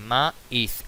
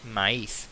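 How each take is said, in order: First: "maíz" split as ma-íz with a stressed í; syllable by syllable. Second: Said in the usual way. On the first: Shown as a demonstration. Teacher showing the hiatus, "maíz" broken in two syllables. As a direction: pause between ma and íz in "maíz". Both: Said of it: "más vocal cerrada tónica".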